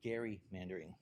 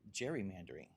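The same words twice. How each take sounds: First: The word begins with a hard G sound. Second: The word begins with a soft J sound. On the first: The speaker calls it right. "the correct pronunciation is actually gerrymandering" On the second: The speaker calls it wrong. "I had been mispronouncing a word for years. I'd been saying gerrymandering"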